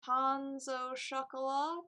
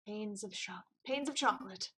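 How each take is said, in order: First: Pains au chocolat said the French way, slow; French pronunciation. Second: Pains of chocolate, said as plain English words; anglicized pronunciation. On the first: Tempting the lawyer with French pastry, said the French way. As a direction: pains au chocolat with French nasal vowels, drawn out. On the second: Stumbling over a French pastry name. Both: Shown as a demonstration. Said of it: "Don't know how to say that word".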